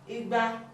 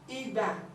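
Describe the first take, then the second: First: The tones go re then re. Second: The tones go re then do. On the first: It means two hundred. "rere, this is two hundred" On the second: It means a tool for tapping palm wine.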